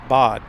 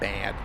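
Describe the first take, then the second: First: The vowel is an open 'ah', like 'bod'. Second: The vowel is a flat English 'a' sound. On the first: The speaker calls it right. "It's bad, not bad. ... It's bod. You pronounce it bod" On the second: The speaker calls it wrong. "You're not [name]"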